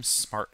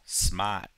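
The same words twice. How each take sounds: First: Said in the usual way. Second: Boston "smart." with the R dropped; non-rhotic Boston "smart.", vowel held open; Boston accent. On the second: Shown as a demonstration. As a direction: say "smart." as "smaht", Boston style. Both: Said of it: "Or as we say in Boston".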